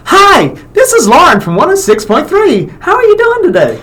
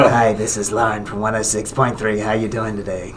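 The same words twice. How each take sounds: First: Very high, chipper radio-host voice; Lauren impersonation. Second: Low, soft pack-a-day smoker version; Lauren impersonation. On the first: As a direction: pitch way up into an exaggerated chirpy falsetto greeting. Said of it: "do an impersonation of Lauren". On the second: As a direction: drop the pitch and volume for a mock smoker's radio greeting. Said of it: "like a pack-a-day transvestite smoker". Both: Acted.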